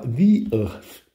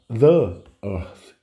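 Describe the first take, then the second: First: 'The' is said with a long 'thee' vowel. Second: 'The' is said with a short 'thuh' vowel. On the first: The speaker calls it right. "você vai falar the earth" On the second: The speaker calls it wrong. "você não vai falar the earth"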